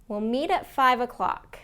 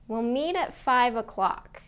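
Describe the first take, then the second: The two takes are said the same way.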